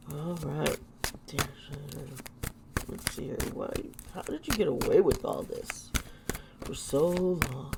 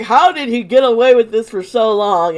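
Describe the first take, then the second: First: Soft, low muttered question; quiet muttering. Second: Loud, outraged exclaim. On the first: Real, not acted. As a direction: mutter it to yourself. Muttering to herself over the cards. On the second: Retold or imitated. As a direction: exclaim it loudly in disbelief. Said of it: "I was like".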